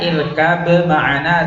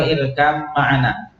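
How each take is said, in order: First: "irkab ma'ana" slowly, b released before the m; clear b. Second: "irkam ma'ana" with b turned into a held m; merged, unclear b. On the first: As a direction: keep the b of "irkab" separate from "ma'ana". ("irkab ma'ana" pelan dengan bunyi ba jelas) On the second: ("irkam ma'ana", ba dilebur menjadi mim) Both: Shown as a demonstration. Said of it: "jelas atau dibaca nggak jelas".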